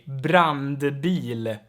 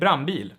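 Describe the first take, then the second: First: It has an n and d before the b. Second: It has an n with no d before the b. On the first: "if you pronounce it very clearly" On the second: "The D here normally gets dropped"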